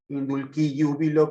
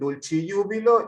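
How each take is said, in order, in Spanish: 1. El latín se pronuncia al estilo clásico. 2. El latín se pronuncia al estilo italiano. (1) "si nos remontamos a la forma clásica" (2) "los italianos dirían"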